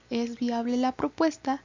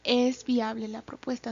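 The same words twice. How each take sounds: First: It sounds like a genuine doubtful question. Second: It sounds like an exclamation, affirming it is viable.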